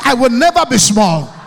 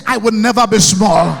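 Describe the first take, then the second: First: NEVER hit hard in a shouted vow; stress on NEVER. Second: NEVER driven home loud for the crowd; stress on NEVER again, shouted. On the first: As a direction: punch NEVER for the crowd. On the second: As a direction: show them how to say NEVER. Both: Shown as a demonstration. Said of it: "You guys are not saying it well".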